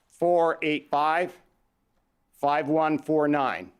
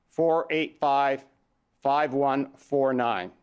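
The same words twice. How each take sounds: The two takes are said the same way.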